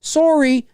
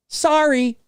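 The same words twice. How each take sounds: First: High "sorry" as SORE-ee; Canadian SORE-ee, pitched way up. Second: High "sorry" as SAR-ee; American SAR-ee, pitched way up. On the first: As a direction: exaggerate the rounded "o" in sorry. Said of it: "We say sorry". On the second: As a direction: exaggerate the open "ah" in sorry. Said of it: "You guys say sorry". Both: Shown as a demonstration.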